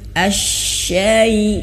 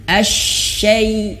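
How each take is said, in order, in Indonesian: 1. Bunyinya dibuat lembut dan ringan. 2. Bunyinya dibuat kasar dan keras. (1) "tapi ai lembut" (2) "Jangan asyai syai kasar"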